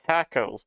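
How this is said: The word is pronounced the British way. The speaker calls it wrong. "this little British man say taco"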